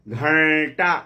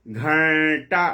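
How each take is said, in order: Both takes have the same delivery.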